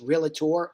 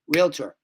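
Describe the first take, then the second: First: The word is said with three syllables. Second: The word is said with two syllables. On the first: The speaker calls it wrong. "There is no such word as realtor or realty" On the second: The speaker calls it right. "It's two beats"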